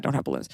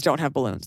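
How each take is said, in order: First: "Don't have balloons" repeated lower and softer; soft, low aside on "Don't have balloons"; quiet repeat. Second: "Don't" stressed, falling firmly; "Don't have balloons" with a punched "Don't". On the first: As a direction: drop the voice low on "have", almost to yourself. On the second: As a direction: lean hard on "Don't" and state it flatly. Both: Shown as a demonstration.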